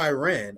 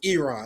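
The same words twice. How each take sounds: First: Iran is said in a Midwestern American way. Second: Iran is said in the standard way. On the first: The speaker calls it wrong. "I don't know why I still always say Iran" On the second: The speaker calls it right. "I know it's Iran"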